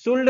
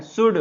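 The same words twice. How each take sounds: First: शुल्ड with the silent l sounded, "shuld"; the mistake to avoid: शुल्ड with an l; शुल्ड said as written, l pronounced; wrong pronunciation. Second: शुड with no l, short "shud"; firm teacher's शुड, silent l; शुड said cleanly as "shood"; correct pronunciation. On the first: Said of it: "शुल्ड नहीं पढ़ना है". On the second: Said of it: "क्या पढ़ना है?". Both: Shown as a demonstration.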